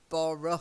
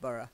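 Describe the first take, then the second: First: The ending is said with a full vowel. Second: The ending is said with a reduced vowel. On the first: The speaker calls it wrong. "it looks like Borough or something" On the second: The speaker calls it right. "but we say Borough"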